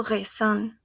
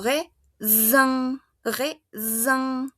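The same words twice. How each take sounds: First: "raisin" as re-SAN, with voiceless s; mispronounced "raisin", S left unvoiced; hissed S, wrongly. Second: "raisin" as re-ZAN, with a buzzing z; French "raisin" with the single S voiced as z; voiced Z sound. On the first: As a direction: say "raisin" with an s sound in the middle. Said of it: "y no digo raisin". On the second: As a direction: slowly split "raisin" into re, then zan. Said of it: "Ya no suena a S". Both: Shown as a demonstration.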